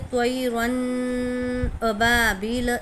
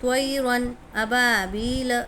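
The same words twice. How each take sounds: First: The n sound is held with nasal resonance. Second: The n sound is clear and short, without nasalization. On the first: The speaker calls it wrong. "इस तरह नहीं पढ़ेंगे, ये गलत है।" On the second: The speaker calls it right. "बिना गुन्ना के मिलाकर पढ़ने का है हमारे को"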